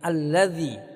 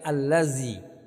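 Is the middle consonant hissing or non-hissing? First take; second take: non-hissing; hissing. First: The middle consonant is a soft th sound. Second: The middle consonant is a hissing z sound. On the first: The speaker calls it right. "tapi alladzi" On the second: The speaker calls it wrong. "jangan sampai dibaca dengan desis"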